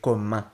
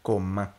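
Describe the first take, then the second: The two takes are said the same way.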